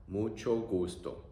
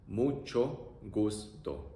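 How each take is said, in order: First: Said in the usual way. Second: Very slow "Mucho gusto." drawn out; teacher modelling slowly; slow demo. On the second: Shown as a demonstration.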